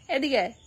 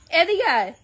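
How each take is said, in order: First: Said in the usual way. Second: এদিকে আয় called out louder and higher. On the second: Real, not acted. Mother calling her daughter a second time, louder.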